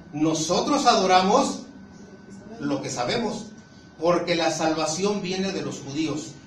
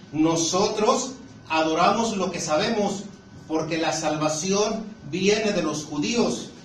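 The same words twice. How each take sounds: Both takes have the same delivery.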